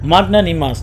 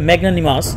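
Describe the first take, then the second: First: The first syllable is said as Bengali 'magna'. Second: The first syllable has the 'a' of cat. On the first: "এটা আমি মাগনা উচ্চারণ কেন করতেছি তার কারণ আছে" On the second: "আসলে ম্যাগনানিমাস"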